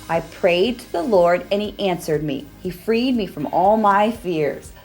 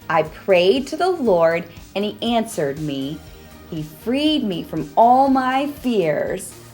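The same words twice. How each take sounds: First: It is said a little faster. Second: It is said at a normal pace.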